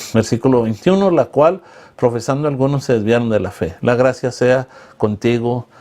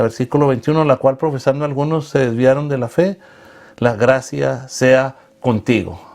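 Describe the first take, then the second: The two takes are said the same way.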